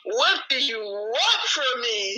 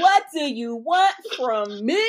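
First: [name] impression. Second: Slow, drawn-out pleading [name] voice. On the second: Retold or imitated. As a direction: stretch it out slowly, pleading like [name]. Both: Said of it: "in my [name] voice".

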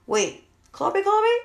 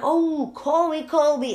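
First: High, rising puzzled repeat, louder on the second; slowly working out who they mean; confused double-take. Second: High, loud falling oh-that-one; the penny drops; dawning realization. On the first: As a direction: mom puzzled about who Kobe is. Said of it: "And I'm like". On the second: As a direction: mom finally realizing who Kobe is. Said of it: "I'm like". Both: Retold or imitated.

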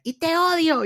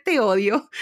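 First: Much higher, louder mock "te odio", thrown like a tantrum; "te odio" shrieked up high like a furious little girl; childish hate shout. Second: Said in the usual way. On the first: Little girl yelling at her dad, in a high mock tantrum. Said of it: "el primer "te odio" que te dice un hijo". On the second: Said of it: "el primer".

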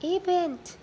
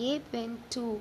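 First: High, loud alarmed question; alarmed cry. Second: Said in the usual way. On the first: A narrator's reading.

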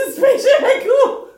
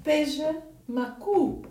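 First: "beija macu" said high and loud, laughing; Portuguese phrase insisted. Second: "Beija macu" said slowly and softly; Portuguese phrase. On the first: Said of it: "in Portuguese". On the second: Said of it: "You want me to?". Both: Shown as a demonstration.

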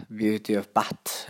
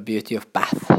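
First: "Beauty of Bat" said slowly, with a hard t instead of th; Norwegian-style English. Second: English pronunciation. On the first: The Hardanger growers' version for viewers, slow Norwegian-style English. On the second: English name read out to viewers in the proper English way. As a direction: say "Beauty of Bath" in proper English. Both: Shown as a demonstration. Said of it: "sånn norsk, eh, engelsk".

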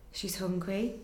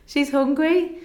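First: Softer, dawning worry; quiet realisation. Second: Higher and louder, heartfelt; emphatic repeat. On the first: Retold or imitated. New mother realising her baby has not fed, quietly. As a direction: let it sink in quietly. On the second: Real, not acted. Mother stressing to the interviewer that her baby was starving, emphatic. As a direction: press it home with feeling.

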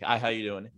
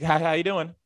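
First: Said in the usual way. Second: High-pitched, over-eager canned hello; NPC coworker greeting. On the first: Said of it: "obviously the first one, I'm like". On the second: Retold or imitated. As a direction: imitate the coworker's game-character greeting. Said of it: "That's her".

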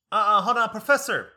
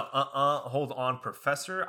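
First: High, loud imitation of an interrupting classmate; mock loud interjection. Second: Said in the usual way. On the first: Older student halting the professor mid-lecture, mock loud interjection. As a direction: cut in loudly, pitched way up.

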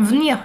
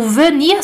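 First: "venir" squeezed to one syllable, "v'nir"; E engolido. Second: "venir" with its first E fully sounded; E pronunciado. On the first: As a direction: drop the first E of "venir". ("venir" virando "v'nir") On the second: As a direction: say "venir" in two clear syllables, ve-nir. ("venir" com o E pronunciado) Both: Shown as a demonstration. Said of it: "se transforma em venir".

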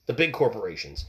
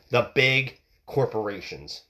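First: Said in the usual way. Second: Slow, weighted "big"; stress on big. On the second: Shown as a demonstration. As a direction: lean hard on "big corporations" slowly. Repeated slowly for emphasis.

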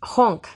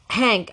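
First: Put-on "Honk." with a broad open o, in a Russian accent; Russian-style Honk. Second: Said in the usual way. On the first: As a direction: say "Honk." the way the Russian boy says Hank. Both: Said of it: "That's the way he pronounces Hank".

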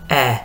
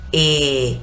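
First: "E" with the jaw dropped, open and lax like a dull sound. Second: "E" said with a wide smile, lips spread, closed bright vowel; smiling é. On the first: To students, the Hungarian e made with a dropped jaw. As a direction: let the jaw fall as you say "E". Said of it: "como si se me cayera el mentón". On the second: To students, the Hungarian é with lips stretched. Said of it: "sonrío de oreja a oreja". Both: Shown as a demonstration.

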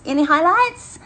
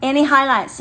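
First: Higher put-on voice. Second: Said in the usual way. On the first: Shown as a demonstration. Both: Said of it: "be stopping talking like this".

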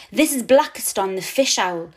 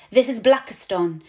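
First: Grand, louder showman's introduction; with a flourish. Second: Said in the usual way. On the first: A narrator's reading. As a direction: present him like a star act. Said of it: "he says with a flourish". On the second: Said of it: "I explain to Elena".

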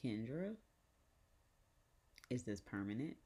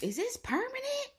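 First: Measured, halting question with long pause; imitated grandmother. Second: Very high, loud mock shriek; imitated alarmed mom. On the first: Grandmother asking Kendra about the face, restrained imitation. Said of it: "So she's like". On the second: Mom questioning the face design, imitated high shriek. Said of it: "She was like".

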